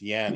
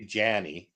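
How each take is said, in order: First: The word begins with a 'y' sound. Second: The word begins with a 'j' sound. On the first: The speaker calls it right. "It's Yanny" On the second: The speaker calls it wrong. "You don't say Janny"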